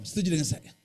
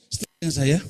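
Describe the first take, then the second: First: Said in the usual way. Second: Louder, pushing for a response. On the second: Shown as a demonstration. Preacher to congregation, asking again louder. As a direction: raise the voice to get an answer.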